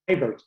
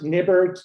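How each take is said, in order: First: The first vowel is a long 'eye'. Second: The first vowel is not a long 'eye'. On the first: The speaker calls it right. "with a long I" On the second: The speaker calls it wrong. "I've gone my entire life with being mispronounced"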